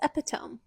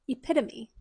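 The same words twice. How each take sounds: First: It is given a spelling-based reading. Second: It is given the standard pronunciation. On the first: The speaker calls it wrong. "I thought this word was" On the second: The speaker calls it right.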